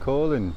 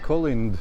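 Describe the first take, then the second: First: The final D sound is left silent. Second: The final D sound is pronounced. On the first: The speaker calls it right. "but Colin" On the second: The speaker calls it wrong. "it's not pronounced Colind"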